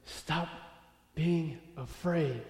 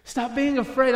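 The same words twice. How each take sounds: First: Quiet, spaced word by word; slow, deliberate command. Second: Higher, louder preaching exhortation; forceful command. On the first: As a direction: pause after "Stop", then draw out "being afraid". God's words to David, first take. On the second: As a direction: drive it out in one urgent run. God's words repeated with force. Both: Acted.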